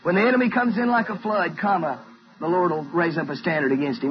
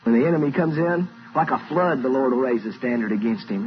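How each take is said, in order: First: The pause comes after 'flood'. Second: The pause comes after 'comes in'.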